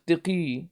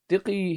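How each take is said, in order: First: The first vowel is an i sound. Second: The same.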